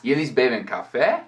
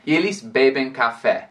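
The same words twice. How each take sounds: First: "Eles bebem café" rising on café; question intonation. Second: "Eles bebem café" falling at the end; statement intonation. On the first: Teacher marking a question by tune alone, rising intonation. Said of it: "com essa entonação, agora é uma pergunta". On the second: Teacher showing the affirmation, statement intonation. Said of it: "com a entonação diferente para marcar". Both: Shown as a demonstration.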